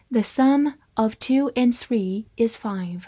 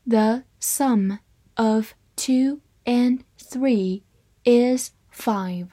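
First: Said in the usual way. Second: Slow, word-by-word model reading; measured dictation pace for learners; slow read-aloud. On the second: Shown as a demonstration. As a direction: separate every word with a short pause. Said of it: "好，慢慢来读".

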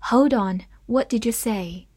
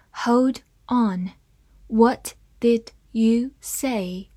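First: Said in the usual way. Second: Slowed down, each word drawn out; slow read. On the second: Shown as a demonstration. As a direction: read it slowly for the class. (慢慢地朗读) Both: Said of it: "我们慢慢来读".

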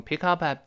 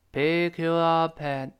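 First: 'pick up at' run together at normal speed; normal-speed linking. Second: 'pick up at' stretched out and joined in slow motion; slow linking. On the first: Teacher showing read-along speed, 'pick up at' smoothly run together. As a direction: link 'pick up at' quickly as one word. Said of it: "老师在常速跟读的时候". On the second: Teacher breaking down the link, slow-motion 'pick up at'. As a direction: draw each linked syllable of 'pick up at' out evenly. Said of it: "轻轻的那个up". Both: Shown as a demonstration.

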